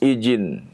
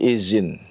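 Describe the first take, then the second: First: The middle consonant is a 'j' sound. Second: The middle consonant is a 'z' sound. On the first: "Atau menjadi jim" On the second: "berubah menjadi zai"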